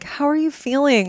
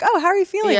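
First: It sounds heavy, pitying and concerned. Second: It sounds light, casual and breezy.

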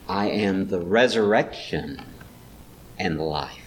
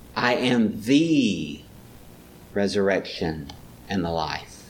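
First: The stress is on the word resurrection. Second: The stress is on the word I. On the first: The point is the resurrection. "Maybe resurrection is where he puts the stress" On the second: He himself, in particular, is the resurrection. "Maybe he's pointing her to the particularness of it"

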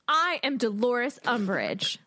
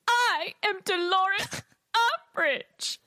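First: It is said in a plain, ordinary voice. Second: It is said in a high, terrified voice.

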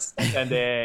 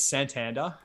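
First: It is said with a Spanish pronunciation. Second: It is said in a broad Australian accent. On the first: "in Spanish" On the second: "in just Bogan Aussie"

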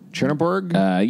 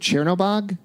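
First: The last syllable is said as 'borg'. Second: The last syllable is said as 'bog'. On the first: The speaker calls it wrong. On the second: The speaker calls it right.

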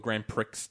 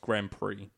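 First: Prix ends with a sounded x, like pricks. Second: Prix ends in a vowel, with no x sound.

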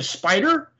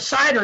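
First: The P sound is clearly said in the word. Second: The P sound is left out of the word. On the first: The speaker calls it right. "You mean a spider?" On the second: The speaker calls it wrong. "it sounded like cider because he couldn't get the P out"

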